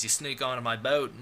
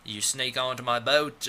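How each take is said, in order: First: Badly faked British voice; mock British, lightly put on; attempted British accent. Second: Put-on British accent slipping into Australian; badly faked Australian vowels; mock Australian, half-committed; accidental Australian accent. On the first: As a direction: have a clumsy go at a British accent. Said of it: "I gave him a British accent". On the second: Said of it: "or that's Australian".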